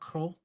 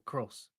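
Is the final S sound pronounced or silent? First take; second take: silent; pronounced. First: The final S sound is silent. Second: The final S sound is pronounced. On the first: "which words I pronounce the S on the end and which I don't" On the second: "which words I pronounce the S on the end"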